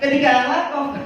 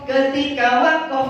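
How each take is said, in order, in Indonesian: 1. Frasanya diucapkan terlalu cepat dan tergesa-gesa. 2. Frasanya diucapkan dengan tempo yang stabil dan teratur.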